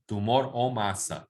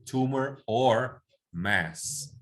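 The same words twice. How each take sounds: First: Said in the usual way. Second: "Tumor or mass" said very slowly, each word apart; slow English model. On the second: Shown as a demonstration. (modelo lento en inglés) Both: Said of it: "en inglés O es or".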